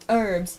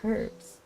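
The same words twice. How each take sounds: First: The word starts without an H sound. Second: The word starts with a clear H sound. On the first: "You don't pronounce the H. The H is silent" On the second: "I say herbs with the H fully"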